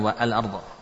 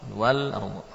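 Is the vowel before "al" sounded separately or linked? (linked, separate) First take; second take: separate; linked. First: The vowel of al is sounded as separate syllable. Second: The w links directly into l, no extra vowel. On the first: The speaker calls it wrong. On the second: The speaker calls it right. "Karena hamzah tidak"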